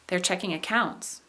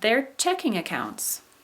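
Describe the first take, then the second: First: The stress falls on "accounts". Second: The stress falls on "checking". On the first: Some people are checking the accounts. "verbs followed by objects" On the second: It names a kind of bank account. "nominal compounds"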